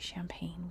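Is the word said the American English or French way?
American English. It is said with American English pronunciation. "we say"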